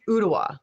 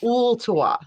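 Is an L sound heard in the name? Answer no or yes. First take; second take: no; yes. First: The name is said without an L sound. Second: The name is said with an L sound. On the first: The speaker calls it right. "I guess you don't pronounce the L. It's Ottawa" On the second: The speaker calls it wrong. "not Ooltawa"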